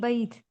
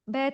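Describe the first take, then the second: First: The vowel is a clear ay diphthong sound. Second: The vowel is a plain long e sound. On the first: The speaker calls it right. "बल्कि जो एराब है ना उसी तरह से पढ़ेंगे" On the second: The speaker calls it wrong. "बैत नहीं, इसको मजहूल तरीके से नहीं पढ़ेंगे"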